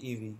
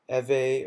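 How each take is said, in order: First: It is said as two separate letter names. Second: It is said as one single-syllable word. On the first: "I pronounce it E V" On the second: "It could be Eve"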